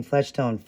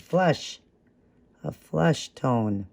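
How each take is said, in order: First: "flesh tone" with eh as in "mesh"; the slip "flesh tone", eh not uh; mispronounced word. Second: "flush" pitched up, with uh as in "rush", then a slow "flush tone"; emphatic self-correction on "flush"; corrected word. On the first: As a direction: say "flesh tone" with an eh vowel where uh was meant. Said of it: "can't believe I keep saying". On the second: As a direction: say "flush tone" deliberately, uh not eh, correcting yourself. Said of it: "I keep saying flesh tone". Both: Real, not acted.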